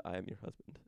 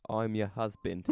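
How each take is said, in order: First: Said in the usual way. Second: Lightly put-on British accent. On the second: Dreamer telling a British penguin he's her husband, British accent. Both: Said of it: "but in a British accent".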